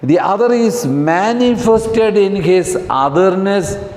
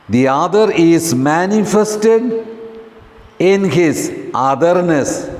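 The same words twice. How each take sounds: First: It is read at normal speed. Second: It is read slowly.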